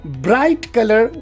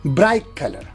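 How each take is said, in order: First: Bright ends in a clear t sound. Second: Bright ends in a k sound.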